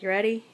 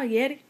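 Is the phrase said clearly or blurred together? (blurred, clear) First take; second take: clear; blurred. First: Both words are said clearly and separately. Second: The words are squashed into one short word. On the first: "it like got shortened to like" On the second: "kept getting shortened more until it sounded like we were saying Yeti"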